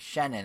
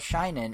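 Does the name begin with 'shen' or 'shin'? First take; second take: shen; shin. First: The name begins with a 'shen' sound. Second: The name begins with a 'shin' sound. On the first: The speaker calls it right. "in the presentation they called him Shenan" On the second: The speaker calls it wrong. "who I used to always call Shinen"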